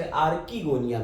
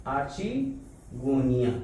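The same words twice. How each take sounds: First: Archegonia said with a hard k, ar-ki-GO-nia; other pronunciation. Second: Archegonia with the ch as in church; first pronunciation. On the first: Teacher showing how some people say it, archegonia with a hard k. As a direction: archegonia with the ch as a k sound. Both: Shown as a demonstration. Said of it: "तो अलग-अलग pronunciation है".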